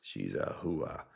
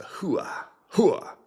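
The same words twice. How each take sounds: First: HOOAH said low and slow, rising at the end. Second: HOOAH pitched high in short bursts; pronouncing hooah. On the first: Streamer settles on how it's said, low slow hooah. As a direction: say "hooah" lower and drawn out. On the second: Streamer tests how they said it, high hooah. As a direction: try out "hooah" twice, pitched way up. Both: Shown as a demonstration. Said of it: "I'll just pronounce it".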